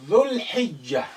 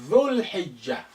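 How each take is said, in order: Both takes have the same delivery.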